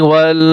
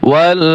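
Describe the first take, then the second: The two takes are said the same way.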